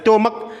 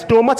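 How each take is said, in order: First: The word ends with a k sound. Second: The word ends with a ch sound. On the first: The speaker calls it right. "स्टोमक पढ़ा जाता है" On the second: The speaker calls it wrong. "स्टोमच नहीं"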